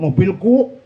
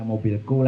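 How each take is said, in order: First: The word is said loudly and proudly. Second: The word is said softly and quietly. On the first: The speaker is boasting about what they own. The speaker calls it wrong. "Aduh, jangan keras-keras punya" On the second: The speaker claims ownership humbly. The speaker calls it right. "jangan keras pelan-pelan"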